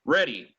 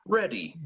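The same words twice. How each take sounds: First: Said in the usual way. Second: Ready in a light British accent. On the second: Shown as a demonstration. Teacher giving the British ready to students. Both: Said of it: "And if you're British".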